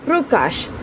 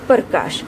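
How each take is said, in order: First: The p runs straight into the r, no vowel. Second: The p is followed by a full vowel. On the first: The speaker calls it right. "प जो है वह एक झटके में बोला जा रहा है... र के ऊपर हमारा जोर है" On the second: The speaker calls it wrong. "ना कि प्रकाश"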